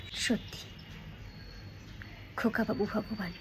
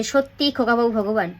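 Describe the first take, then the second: First: Hushed, with a long pause after the first word; personal statement. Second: Brisk everyday voice, words run together; wrong, run-on delivery. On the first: Teacher shows her own statement to students, hushed and deliberate. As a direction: say it softly as your own belief, unhurried. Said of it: "আমি statement দিলাম". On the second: Teacher shows students how not to say it, run-on delivery. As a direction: say it straight through without a pause. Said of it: "এভাবে তো বলতে পারবো না". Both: Shown as a demonstration.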